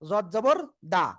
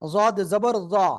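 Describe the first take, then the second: First: The final syllable sounds like a plain 'da'. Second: The final syllable sounds like a 'za'. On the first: The speaker calls it wrong. "ভুল।" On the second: The speaker calls it right. "জিব্বার গোলার কিনারা উপরে মাড়ি দাঁতের গুঁড়ার সঙ্গে লাগাবেন"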